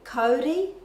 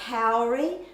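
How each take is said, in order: First: It is pronounced with Māori vowels. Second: It is pronounced with English-style vowels. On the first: The speaker calls it right. "that really should be kauri in the correct Māori pronunciation" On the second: The speaker calls it wrong. "people say kauri"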